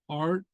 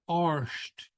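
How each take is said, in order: First: The word ends in a plain t sound. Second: The word ends in an sht sound. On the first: "A R D will be pronounced either" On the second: "or arsht"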